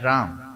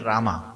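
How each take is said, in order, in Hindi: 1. शब्द व्यंजन 'm' पर खत्म होता है। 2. शब्द लंबी 'aa' ध्वनि पर खत्म होता है। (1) "है राम। वो ए साइलेंट है, उसको आ नहीं बोलना।" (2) "आर ए एम ए लिखते हैं तो बोलते क्या? रामा"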